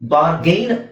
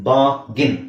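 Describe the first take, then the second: First: The second syllable sounds like 'gain'. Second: The second syllable sounds like 'gin'. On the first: The speaker calls it wrong. "Common ಆಗಿ ಮಿಸ್ಪ್ರೊನೌನ್ಸ್ ಮಾಡ್ತಾರೆ" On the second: The speaker calls it right. "ಇದು ಬಾಗಿನ್"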